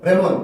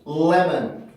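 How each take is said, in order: First: The L starts directly with no sound before it. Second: A faint vowel-like sound comes before the L. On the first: The speaker calls it wrong. "레몬 이렇게 나는 게 아니라" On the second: The speaker calls it right. "이 앞에 을과 비슷한 소리가 먼저 나올 수밖에 없어요"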